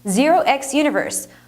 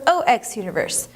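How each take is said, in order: First: The first character is said as zero. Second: The first character is said as oh. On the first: "Regardless of how you choose to pronounce it" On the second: "Regardless of how you choose to pronounce it"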